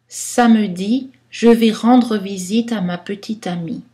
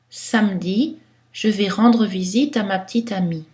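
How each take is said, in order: First: Many weak vowels are pronounced fully. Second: Some weak vowels are pronounced, some dropped. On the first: This is literary, poetic style. "Style littéraire, poétique, on va prononcer beaucoup de choix" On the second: This fits any situation. "Dans un style neutre qui pourrait passer dans toutes les situations"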